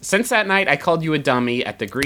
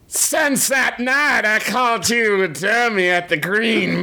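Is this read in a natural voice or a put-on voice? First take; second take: natural; put-on. First: It is read in his own natural voice. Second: It is read in a put-on sea captain voice.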